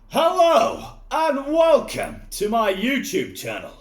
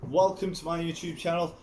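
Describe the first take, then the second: First: It is said in an exaggerated put-on voice. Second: It is said in his own natural voice.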